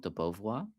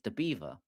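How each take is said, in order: First: The name ends with a French-style 'vwar'. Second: The name ends like the English word 'beaver'.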